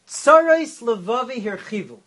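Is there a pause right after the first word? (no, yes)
no. The first two words run together without a pause. The pains of my heart have increased. "That's a simple explanation"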